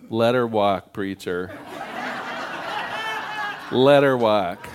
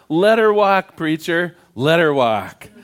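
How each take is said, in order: First: It is said quietly. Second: It is yelled loudly.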